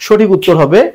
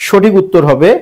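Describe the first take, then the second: No difference in how they are said.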